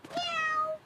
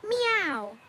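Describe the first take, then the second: First: Cat meow. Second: Said in the usual way. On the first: Shown as a demonstration. A kitten answers the teacher's question, high cat meow. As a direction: Meow squeaked much higher like a kitten. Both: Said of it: "The cat says meow".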